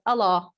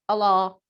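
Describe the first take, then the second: No difference in how they are said.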